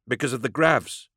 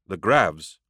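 First: High-pitched character voice; nervous explanation. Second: Said in the usual way. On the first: A narrator's reading. Superintendent explains to the stranger why everyone left, nervous.

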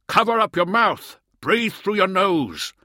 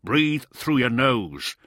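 First: Shouting. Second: Said in the usual way. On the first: A narrator's reading. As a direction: yell it again, pressing hard. Repeats shout over wind.

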